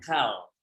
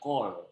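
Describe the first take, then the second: First: The vowel is an open 'a' sound. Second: The vowel is a rounded 'o' sound. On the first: The speaker calls it wrong. "bacanya bukan bukan kal" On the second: The speaker calls it right. "Ini bacanya kol"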